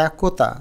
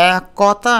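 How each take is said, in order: First: একতা as 'ae-ko-ta'; rounded middle vowel. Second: একতা as 'ae-kaw-ta', drawn out; slow একতা with an open ক; open middle vowel. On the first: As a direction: say ক in একতা as 'ko'. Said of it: "ওকারের মতো করে করি". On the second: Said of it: "কর উচ্চারণটা আমরা ওকারের মতো". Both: Shown as a demonstration.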